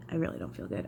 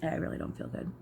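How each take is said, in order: First: Real sick groan of a line, lower and softer; nauseous, low. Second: Real queasy whisper, softer; nauseous whisper. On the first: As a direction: sink low, feeling about to throw up. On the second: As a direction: breathe it out, feeling sick. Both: Real, not acted. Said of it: "I really feel like I'm about to be sick".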